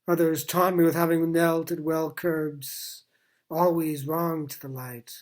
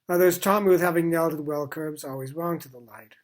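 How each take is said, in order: First: It is read with the verse line breaks marked. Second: It is read straight through like conversational prose. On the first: "read it with the dynamic use of enjambment, which I suggest" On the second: "We could read it out like a paragraph of prose"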